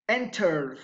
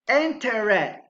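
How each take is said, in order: First: The ending adds no extra syllable. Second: The ending is an extra syllable. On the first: The speaker calls it right. "Those are correct" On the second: The speaker calls it wrong.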